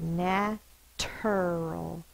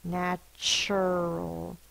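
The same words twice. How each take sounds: First: The middle consonant is a plain t sound. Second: The middle consonant is a ch sound. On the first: The speaker calls it wrong. "It feels weird to say natural" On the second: The speaker calls it right. "That's why we say the ch sound"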